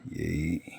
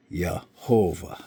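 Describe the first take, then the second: First: Yehovah split into "ye... ho... va"; syllable-by-syllable pronunciation. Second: Yehovah slowly as "yah-HO-vah"; slow Yehovah with a Y and long O; Hebrew pronunciation. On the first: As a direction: Yehovah softly, each syllable held, long pauses between. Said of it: "Which pronounced in English". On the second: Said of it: "So it'd be". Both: Shown as a demonstration.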